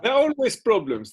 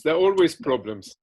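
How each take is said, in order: First: Quick, high, insistent push on the words; emphatic burst. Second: Said in the usual way. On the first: Real, not acted. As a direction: blurt it out fast and high, insisting. Emphatic outburst in interview.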